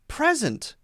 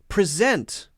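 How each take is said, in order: First: The stress is on the first syllable. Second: The stress is on the second syllable. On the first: It is the noun. "we'll stress the other syllable, the first syllable" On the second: It is the verb. "If it's a verb, it's usually going to stress the second syllable"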